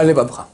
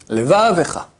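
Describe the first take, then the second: First: "levavcha" quickly closed, no e after v; shva swallowed. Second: "Levavecha" with va held and ve quick; short audible shva. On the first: Rabbi naming the mistake, shva dropped. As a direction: say "levavcha" with v butting onto ch. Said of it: "Et pas levavcha". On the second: Rabbi repeating the correct reading, shva short. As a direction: say "Levavecha", a brief e before a falling cha. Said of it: "c'est la moitié d'un tséré". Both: Shown as a demonstration.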